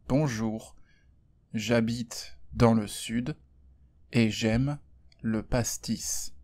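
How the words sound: It is spoken in a neutral French accent. "je vais parler sans accent"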